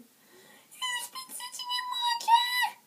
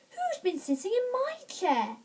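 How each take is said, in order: First: It is said in a tiny wee voice. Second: It is said in a middle-sized voice. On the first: "in his tiny wee voice" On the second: "in a middle-sized voice"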